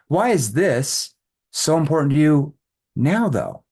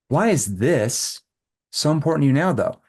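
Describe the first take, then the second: First: The word 'now' is stressed, preceded by a pause. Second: The word 'this' is stressed, followed by a pause. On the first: The focus is on the timing, why at this moment. "now I can emphasize this. Now I have to do a verbal pause before that" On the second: The focus is on the thing the prospect just said. "the little verbal pause right here emphasizes this"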